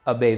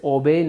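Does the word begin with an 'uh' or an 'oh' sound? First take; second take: uh; oh. First: The first vowel is a short 'uh' sound. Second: The first vowel is a long 'oh' sound. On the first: The speaker calls it right. "Correct pronunciation जो हमारी रहेगी वो रहेगी अबे" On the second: The speaker calls it wrong. "हम इसे ओबे नहीं बोलेंगे"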